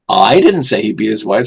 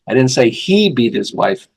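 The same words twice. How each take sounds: First: The stress is on the word I. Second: The stress is on the word beat.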